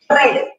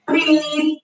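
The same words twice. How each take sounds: First: "red" with a short e; past-tense read. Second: "read" with a long ee; present-tense read. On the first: Teacher contrasting verb tenses, "red" pronounced like the colour. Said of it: "se parece al color rojo". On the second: Teacher contrasting verb tenses, "read" pronounced reed. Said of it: "pero sí en la pronunciación". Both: Shown as a demonstration.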